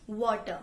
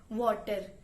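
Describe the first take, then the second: First: "वाटर" with no R sound at the end; R dropped. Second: Punjabi tone. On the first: Teacher demos "वाटर" without its R. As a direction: let the R fall away in "वाटर". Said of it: "र अगर हम उड़ा दें". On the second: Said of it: "Punjabi tone में". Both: Shown as a demonstration.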